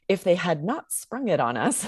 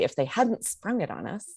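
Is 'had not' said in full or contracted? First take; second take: full; contracted. First: The words had not are said in full. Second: The words had not are contracted to hadn't. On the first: The speaker calls it wrong. "I wouldn't say" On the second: The speaker calls it right. "create that contraction and say"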